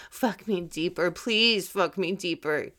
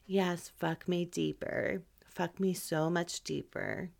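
First: Urgent, pleading breathy cry; intense. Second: Soft, unhurried and mismatched to the words; deliberately underplay it, quiet and leisurely; too-slow pace. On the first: Showing how an intense moment should sound, urgent. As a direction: push it out with desperate energy. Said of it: "that's a very intense moment". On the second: Showing the wrong pace for an intense moment, slow. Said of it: "I'm talking at this pace". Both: Shown as a demonstration.

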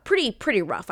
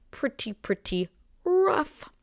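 First: Said in the usual way. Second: "Pretty, pretty rough" slow and much higher, a mock wail; dramatic whine. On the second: Shown as a demonstration. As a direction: stretch out "rough" like a mock lament.

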